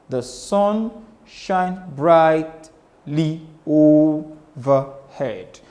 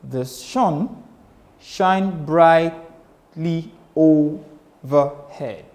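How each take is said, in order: No difference in how they are said.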